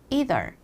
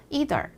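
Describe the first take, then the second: First: It is said with an American pronunciation. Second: The same.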